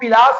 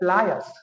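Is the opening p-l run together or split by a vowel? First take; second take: split; run together. First: A vowel splits the p and l sounds. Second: The p and l run together without a vowel. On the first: The speaker calls it wrong. "उसको हम पिलास ही बोलते हैं" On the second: The speaker calls it right. "ये है प्लायर्स"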